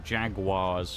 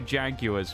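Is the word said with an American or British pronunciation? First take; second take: American; British. First: The word has an American pronunciation. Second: The word has a British pronunciation.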